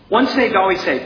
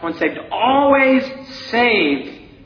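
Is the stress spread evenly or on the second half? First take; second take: even; second half. First: The stress is spread evenly over both halves. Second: The stress falls heavily on the second half.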